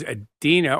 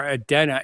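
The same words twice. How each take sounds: First: Adena said as "uh-DEE-nuh"; stressed "DEE" in Adena; first pronunciation of Adena. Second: Adena said as "uh-DEN-uh"; stressed "DEN" in Adena; alternative pronunciation of Adena. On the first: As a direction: say Adena with a long "ee" in the middle. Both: Shown as a demonstration. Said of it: "as some people pronounce it".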